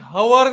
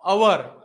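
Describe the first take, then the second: First: The word starts with an audible h sound. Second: The word starts with a vowel, no h. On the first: The speaker calls it wrong. "मी हवर नाही म्हणत" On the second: The speaker calls it right. "मी म्हणतो अवर"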